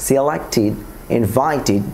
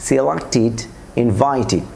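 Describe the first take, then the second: Both takes have the same delivery.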